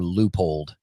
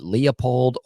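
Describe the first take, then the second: First: The first syllable has no 'lee' sound. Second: The first syllable has a 'lee' sound. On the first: "I think it's Loopold" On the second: "a lot of people pronounce it Leopold. Like Lee"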